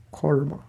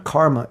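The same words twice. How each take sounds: First: "karma" in careful Sanskrit style, softer; correct "karma". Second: "karma" in everyday American pronunciation; wrong "karma". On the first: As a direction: say "karma" pedantically, with a rounded first vowel. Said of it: "it's karma". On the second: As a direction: say "karma" with a plain English r. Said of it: "It's not karma". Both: Shown as a demonstration.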